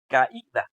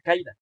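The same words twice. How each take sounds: First: The a and i fall in separate syllables. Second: The a and i glide together in one syllable. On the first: The speaker calls it right. "se pronuncia caída, hay algo ahí que corta el sonido de la A de la I" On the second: The speaker calls it wrong. "la palabra no se pronuncia caída"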